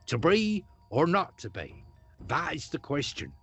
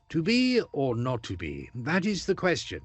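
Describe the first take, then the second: First: It is in a rural West Country-like accent. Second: It is in a modern, polished standard accent. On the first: This is how the line was spoken originally. "O P was more like West Country" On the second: This is how the line is spoken today. "they wouldn't have sounded like Laurence Olivier or John Gielgud"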